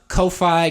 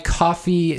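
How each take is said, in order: First: The first vowel sounds like the vowel in 'coat'. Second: The first vowel sounds like the vowel in 'cough'. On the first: This is the way the speakers usually say it. "I just call it Ko-Fi" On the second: This is the way others may say it. "somebody mentioned that that's a funny way of pronouncing it"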